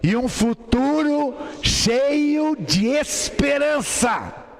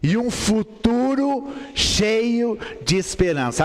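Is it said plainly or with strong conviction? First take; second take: strong conviction; plainly. First: It is said with strong, forceful conviction. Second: It is said plainly, without extra conviction.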